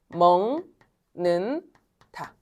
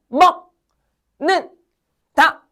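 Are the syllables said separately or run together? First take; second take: run together; separately. First: The syllables are run together in one flow. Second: Each syllable is pronounced separately and distinctly. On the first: "얘를 연달아 발음하면 어떻게 된다고요? 먹는 다. 이렇게 발음되지" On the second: "각각 발음하면 그냥 먹는 다 이렇게 돼"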